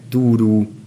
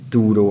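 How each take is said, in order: First: The word ends in a long ú. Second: The word ends in a long ó. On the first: This is the regional dialect form. "nagyon gyakori az ú, ű ejtése" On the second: This is the standard form. "az ó, ő hangok helyett"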